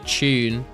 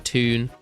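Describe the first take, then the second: First: The word is said in a British way. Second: The word is said in an American way. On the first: "I just say tune" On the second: "I think that's probably an American kind of thing as well"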